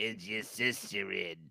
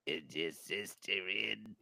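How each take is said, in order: First: Slow, low smoker-lady voice; old lady again. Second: Put-on low, slow old smoker lady voice; raspy old lady. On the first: Retold or imitated. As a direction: croak it out slowly like a chain smoker. Repeats the old lady's question. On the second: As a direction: drag it out like a lifelong smoker.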